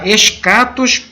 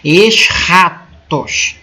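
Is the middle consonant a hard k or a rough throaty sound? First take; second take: hard k; throaty. First: The middle consonant is a plain hard k. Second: The middle consonant is a rough throaty sound. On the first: "a gente pronuncia escatos, é mais simples" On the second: "É o som de um R meio, um R meio gutural, tipo o J do espanhol"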